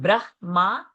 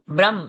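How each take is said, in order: First: It ends with a vowel after the m. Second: It ends on the m with no vowel. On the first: The speaker calls it wrong. "not Brahma" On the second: The speaker calls it right. "Brahm, not Brahma"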